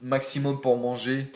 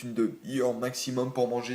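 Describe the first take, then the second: First: Said in the usual way. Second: Holding back a hiccup; suppressing hiccups. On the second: Real, not acted. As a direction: hiccups caught mid-sentence. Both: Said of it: "j'ai le hoquet".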